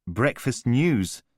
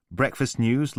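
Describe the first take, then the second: First: Slow, stunned repeat of Breakfast news; stunned echo. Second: Said in the usual way. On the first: Acted. Callum stunned by the publicist's plans, echoing slowly in disbelief.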